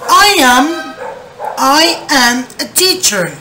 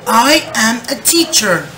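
First: Louder, slow model sentence for repeating. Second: Said in the usual way. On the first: Shown as a demonstration. Teacher reading the example aloud for the class. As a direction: project it to the class slowly. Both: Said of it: "Me dicen acá".

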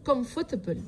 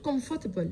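The two takes are said the same way.

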